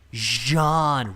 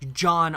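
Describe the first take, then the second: First: It starts with a soft 'zh' sound. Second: It starts with a hard 'j' sound, like John. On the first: The speaker calls it right. "Roll the J" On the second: The speaker calls it wrong. "I hate when people say John Arc"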